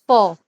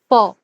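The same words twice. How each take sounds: Both takes have the same delivery.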